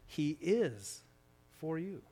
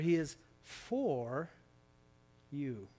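First: The stress is on the word 'is'. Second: The stress is on the word 'for'.

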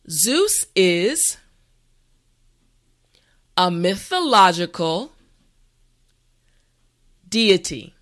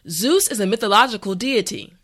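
First: The sentence is spoken slowly and carefully. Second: The sentence is spoken at a normal pace. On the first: "this time repeat after me" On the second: "the last time at a regular pace"

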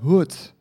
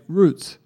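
First: Roots is said Brazilian-style, the R like H. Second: Roots is said with a plain English R.

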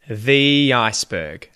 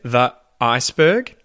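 First: A y sound links the and iceberg. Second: The voice stops between the and iceberg. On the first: The speaker calls it right. "And I link it with a Y kind of sound" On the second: The speaker calls it wrong. "I don't say the iceberg because I kind of have to stop my voice there"

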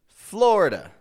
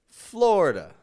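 No difference in how they are said.

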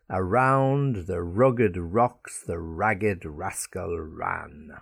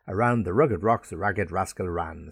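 First: The sentence is spoken at a slow pace. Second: The sentence is spoken at a quick pace. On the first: "Let me slow it down for you" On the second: "So you can say it quicker"

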